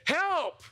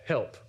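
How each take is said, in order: First: It is cried out desperately. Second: It is said plainly and calmly.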